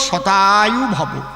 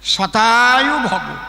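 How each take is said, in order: First: The first word begins with an sh sound. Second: The same.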